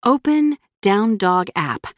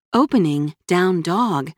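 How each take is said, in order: First: Said in the usual way. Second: Slow, even phone assistant voice; reply like a machine; robot voice. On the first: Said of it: "spoke to her phone". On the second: Acted. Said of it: "answered a mechanical female voice".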